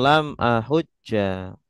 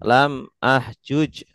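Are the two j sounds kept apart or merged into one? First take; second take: merged; apart. First: The j sounds merge into one doubled j with -a. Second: The two j sounds are kept apart, ending clipped. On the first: This is the form actually used by Arabs. "jimnya di idgham kemudian di fathah" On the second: This is the underlying original form. "Asalnya tuh ahjuj, lam ahjuj"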